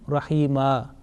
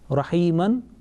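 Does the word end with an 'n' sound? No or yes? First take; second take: no; yes. First: The word ends with a plain 'a' vowel. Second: The word ends with a nasal 'an' sound. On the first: The reciter stops on this word. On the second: The word is read in running recitation.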